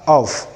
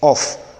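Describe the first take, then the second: First: The word ends with a voiced v sound. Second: The word ends with a voiceless f sound. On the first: The speaker calls it right. "it is to be realized as of" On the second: The speaker calls it wrong. "and not off"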